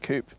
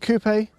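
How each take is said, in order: First: It is said the American way. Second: It is said the speaker's own non-American way. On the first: "the Americans say coupe" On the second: "sorry, ... I'm from a different place"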